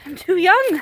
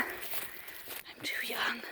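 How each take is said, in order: First: Put-on loud, raised cry of I'm too young; loud, mock despairing protest; loud lament. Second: Put-on slow, breathy whisper of I'm too young; slow hushed whispered echo. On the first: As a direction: wail it out loud. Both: Shown as a demonstration. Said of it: "repeated as a whisper".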